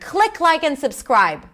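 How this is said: It is said in a commanding, authoritative tone. The speaker is giving an order. The speaker calls it wrong. "It's like I'm being authoritative here"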